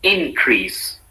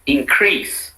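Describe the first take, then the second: First: "increase" with the stress on IN; IN-crease, falling after the first syllable. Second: "increase" with the stress on CREASE; in-CREASE, rising onto the second syllable. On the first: Teacher models the noun for repetition, increase stressed on IN. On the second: Teacher models the verb for repetition, increase stressed on CREASE. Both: Shown as a demonstration. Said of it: "said in two different ways".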